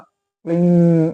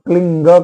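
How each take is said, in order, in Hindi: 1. यह मिश्रित m-n नासिक्य पर खत्म होता है। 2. यह कड़े g की ध्वनि पर खत्म होता है। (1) "म और न इन दोनों का संयुक्त उच्चारण होता है" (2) "कुछ लोग क्लिंग कह देते हैं तो ग सही नहीं है"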